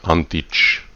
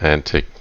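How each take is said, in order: First: The name is said the Eastern European way. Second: The name is said in a plain way. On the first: This is the joking way used here. "with an Eastern European pronunciation" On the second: This is the preferred way to say the name. "preferably said Antic"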